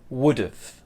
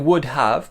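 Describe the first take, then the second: First: The words are pushed together into one. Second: Both words are said fully and separately. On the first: "let's push it together" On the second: "We could say would have"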